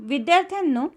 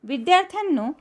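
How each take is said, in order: No difference in how they are said.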